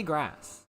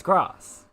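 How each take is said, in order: First: GRASS with the American "a" of "cat"; American pronunciation. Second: GRASS with the long British "ah"; British pronunciation. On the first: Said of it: "say that like an American". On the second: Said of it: "The British way". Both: Shown as a demonstration.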